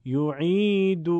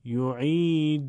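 First: یعید chanted slowly as "yu'iidu" with brief final "u"; short final vowel. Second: یعید chanted slowly as "yu'iiduu" with held final "uu"; long final waw. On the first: Teacher models damma, یعید with short ending. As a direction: keep the end of یعید to one beat. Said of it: "ضمه یه ضربی کوتاه". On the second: Teacher models madd, یعید with drawn-out ending. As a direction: stretch the end of یعید over two beats. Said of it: "واو مدی دو ضربی به صورت". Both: Shown as a demonstration.

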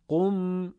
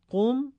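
First: Sung, «قم» as long, sustained "qum"; sung, whole-word reading. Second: Short «قم», much higher and rising; segmented reading. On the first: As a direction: chant «قم», lingering on the m. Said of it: "هم کلمه خوانیش و پیوسته خوانیش". (sung, «قم» پیوسته و کشیده) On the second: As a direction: lift «قم» as a brief "qum". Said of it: "هم بخش خوانیش". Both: Shown as a demonstration.

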